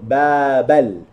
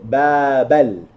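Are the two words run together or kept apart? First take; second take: together; together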